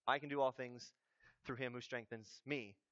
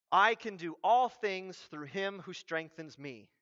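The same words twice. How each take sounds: First: Low, soft throwaway quote; mock poster caption. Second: Said in the usual way. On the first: Preacher quotes a basketball poster's verse, low deadpan aside. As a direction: drop it low and quiet, trailing softer.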